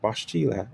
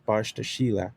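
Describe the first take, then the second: First: The word is said quickly in a shortened form. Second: The word is said slowly with all its parts. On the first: "the first way you said it, that's a shortening of the word" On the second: "He just kind of said it slow so I could hear it"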